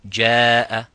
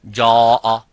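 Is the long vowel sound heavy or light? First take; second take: light; heavy. First: The long vowel is light and thin. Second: The long vowel is heavy and full. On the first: The speaker calls it right. "then you make it light and empty mouth. For example, you would say jaa" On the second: The speaker calls it wrong. "you wouldn't say jaa"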